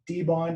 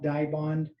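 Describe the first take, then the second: First: The first syllable sounds like 'dee'. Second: The first syllable sounds like 'die'. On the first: This is how the company that makes it says it. "pronunciation that we typically use" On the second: This is how many people in the market say it. "a lot of people in the market have called it die bond"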